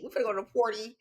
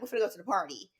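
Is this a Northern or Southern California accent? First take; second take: Southern; Northern. First: It has an LA, Southern California accent. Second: It has a Northern California accent.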